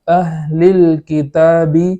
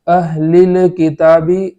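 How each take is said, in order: First: The l closes the syllable with no vowel. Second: A vowel is added after the l sound. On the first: The speaker calls it right. "बल्कि अहलिल किताबी इस तरीके से पढ़ेंगे" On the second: The speaker calls it wrong. "ऐसा नहीं पढ़ेंगे"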